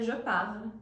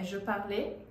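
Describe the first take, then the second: First: The verb ends on the consonant 'l'. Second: The verb ends with an 'é' vowel sound. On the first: The speaker calls it right. "na verdade, é je parle no presente" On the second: The speaker calls it wrong. "Achar que a pronúncia é"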